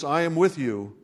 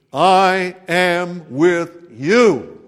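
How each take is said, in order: First: Said in the usual way. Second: Very slow, loud, drawn-out "I am with you"; slow proclamation. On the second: Acted. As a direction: stretch out every word of "I am with you". God's promise voiced in sermon.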